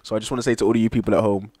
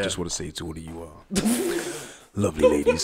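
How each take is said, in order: First: It is said in his normal voice. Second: It is said in a put-on deep voice.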